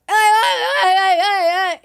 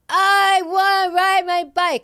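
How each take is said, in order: First: The voice sounds convulsive and distorted. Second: The voice sounds smooth and undistorted.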